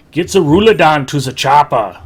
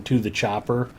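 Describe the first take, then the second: First: Loud Schwarzenegger accent, barked at the chopper. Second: Said in the usual way. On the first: Shown as a demonstration. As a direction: shout it in a thick Austrian Schwarzenegger accent. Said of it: "And I nailed it pretty good". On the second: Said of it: "helps you get into character".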